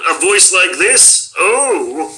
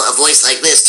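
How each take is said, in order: First: Proper little cartoon Martian voice; lightly put-on fussy alien, drawn-out "Oh"; later Marvin. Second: Nebbish cartoon nerd voice, understated; lightly put-on nerdy Martian; original Marvin. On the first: Voice actor shows the changed Marvin, prim cartoon voice. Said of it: "changed it from, you know, a voice like this to". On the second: Voice actor shows the older Marvin, mild nebbish voice. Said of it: "Mel Blanc changed it from". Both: Shown as a demonstration.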